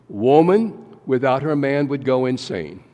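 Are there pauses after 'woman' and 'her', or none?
none. It is said straight through without pauses.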